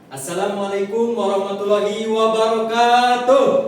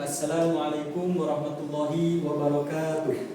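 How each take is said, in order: First: The greeting is said loudly and energetically. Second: The greeting is said softly and quietly. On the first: "ketika Bapak mengucapkan salam keras" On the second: "ketika Bapak mengucapkan salam pelan"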